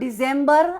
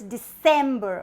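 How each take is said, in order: First: The consonant after the first vowel is a buzzing z. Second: The consonant after the first vowel is a hissing s. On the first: The speaker calls it wrong. "And not December" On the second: The speaker calls it right. "but it's December"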